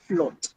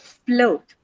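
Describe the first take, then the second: First: The vowel stays one steady pure sound. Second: The vowel glides from schwa to oo. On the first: The speaker calls it wrong. "not float" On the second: The speaker calls it right. "what you actually hear in this word is a diphthong o"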